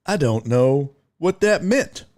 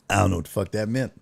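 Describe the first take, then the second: First: Measured, each word separated; careful enunciation. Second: Fast, run-together words; quick dismissal. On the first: Shown as a demonstration. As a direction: say it deliberately, spacing the words out. Repeats it carefully, without the swearing. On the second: Real, not acted. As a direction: rattle it off quickly. First, quick admission of confusion.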